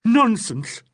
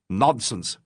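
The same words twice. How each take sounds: First: Much higher and louder, spat back in fury; furious echo. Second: Said in the usual way. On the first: Acted. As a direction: throw the word back in a rage. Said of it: "echoed Legg in a sort of fury".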